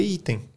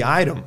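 First: "item" read letter by letter in Portuguese, starting with an "ee" sound; Portuguese-style misreading. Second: "item" said as English "iron", starting with an "eye" sound; English pronunciation. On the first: Warning students off reading first, Portuguese-style pronunciation of "item". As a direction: say "item" as Portuguese spelling reads it. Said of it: "é isso que tá em português". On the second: Teacher showing what the ear hears, English pronunciation of "item" as "iron". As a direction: say "item" like the heard English word "EYE-urn". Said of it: "Aí quando você ouvir".

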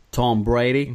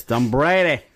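First: Botched attempt at a Boston accent; bad Boston accent. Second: Second, firmer stab at Boston; attempted Boston accent. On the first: Host fumbling a question about Tom Brady, bad Boston accent. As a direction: try Boston and miss badly. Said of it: "That was the worst Boston accent". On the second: Host from California copying the co-host, attempted Boston accent. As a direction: copy a Boston accent, not quite convincingly. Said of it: "the worst Boston accent".

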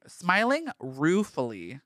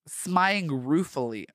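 First: "Smiling ruefully" slowed, ending on a rise; mocking repeat. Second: Said in the usual way. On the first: Shown as a demonstration. Repeating the fanfic phrase to mock it, slow rising. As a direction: savour "ruefully" slowly with a questioning lift. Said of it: "Ruefully as in".

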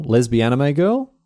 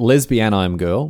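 First: Put-on "lesbian anime girl" run together as "lesbianime"; "anime" said AN-ih-may, sharing the end of "lesbian"; anime in full. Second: Put-on "lesbian I'm girl", anime as one syllable "I'm"; slow "lesbian", then "I'm girl"; anime read as "I'm". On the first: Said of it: "first two letters of anime". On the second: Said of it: "last two letters of lesbian". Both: Shown as a demonstration.

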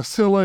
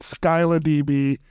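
First: Scylla said as SILL-a; more correct pronunciation. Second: Scylla said as SKY-la; former pronunciation. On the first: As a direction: say Scylla with a silent c and short i. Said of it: "is the more correct pronunciation". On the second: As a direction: say Scylla with a long "sky" first syllable. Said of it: "I've always pronounced it". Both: Shown as a demonstration.

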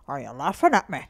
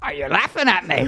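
First: Low Irish man asking; gruff Irish voice, accusing; Irish accent. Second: Attempted Irish accent, laughing; bad Irish try. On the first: Retold or imitated. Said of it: "I do one where I". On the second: Shown as a demonstration. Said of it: "Can you try that?".

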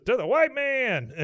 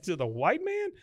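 First: Loud, high, drawn-out mock cheer; rousing toast cheer. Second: "To the white man?" rising high at the end; puzzled question. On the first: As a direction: raise a glass and holler it triumphantly. Dale cheers the toast, acted out. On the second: Acted. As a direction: echo "To the white man?" as an unsure question, swooping up on "man". Peggy echoes the toast unsure.

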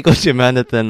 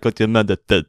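First: Said in the usual way. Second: Mock Russian accent on "Gochu Manathan"; teasing copy of a Russian-accented name; imitated Russian accent. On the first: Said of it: "Why did you say". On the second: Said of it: "in the Russian accent".

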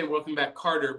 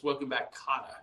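First: Carter said with an ar sound; wrong pronunciation. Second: Kotter said with an ah sound; right pronunciation. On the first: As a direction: say Carter, not Kotter. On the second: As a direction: say Kotter with a short o. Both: Shown as a demonstration. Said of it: "but it's".

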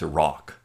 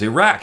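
First: Iraq ending like "rock"; Iraq with an open "ah" in the second syllable; student's corrected pronunciation. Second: Iraq ending like "rack"; Iraq rhymed with "back"; own pronunciation. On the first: Retold or imitated. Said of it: "You can't say it that way". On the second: Shown as a demonstration. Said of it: "That's how I said it".

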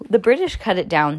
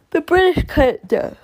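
First: Said in the usual way. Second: Higher, louder outburst; dramatic exclamation. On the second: Shown as a demonstration. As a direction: announce it like big news.

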